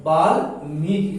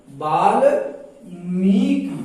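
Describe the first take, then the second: First: बाल्मीकि with a shorter "मी", lower pitch; teacher models बाल्मीकि without dragging the vowels; correct pronunciation demo. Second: बाल्मीकि very slow, broken apart with a drawn-out "मी"; बाल्मीकि stretched syllable by syllable, as a wrong example; wrong pronunciation demo. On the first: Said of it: "कहा जाता है". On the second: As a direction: drag out the long vowel in बाल्मीकि. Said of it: "नहीं". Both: Shown as a demonstration.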